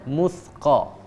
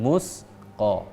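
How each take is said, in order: First: The consonant is a soft th sound. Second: The consonant is a hissing s sound. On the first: The speaker calls it right. "ujung lidah bersentuhan dengan ujung gigi bagian atas" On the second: The speaker calls it wrong.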